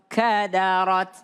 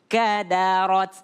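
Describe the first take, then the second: The two takes are said the same way.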